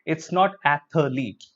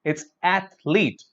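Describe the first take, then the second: First: "athlete" with an extra vowel, ath-uh-leet; wrong pronunciation. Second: "athlete" in two clean syllables, slowly; correct pronunciation. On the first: Teacher showing students the wrong athlete. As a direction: slip an uh between th and l in "athlete". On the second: Teacher giving students the right athlete. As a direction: say "athlete" as ath-leet, no extra vowel. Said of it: "the correct pronunciation". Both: Shown as a demonstration.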